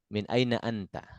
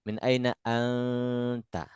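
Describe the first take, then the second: First: The nasal n is short, with no hold. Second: The nasal n is held long before ta. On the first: This is everyday spoken Arabic. The speaker calls it right. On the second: This follows the strict rules for reciting scripture. The speaker calls it wrong.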